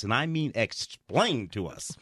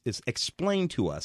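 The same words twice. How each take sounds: First: Slower, leaning hard on "mean"; stress on mean. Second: Said in the usual way. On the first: Shown as a demonstration. Critic mocking an over-explained plot, stressing "mean". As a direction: press "mean" down, then drag out "explained to us".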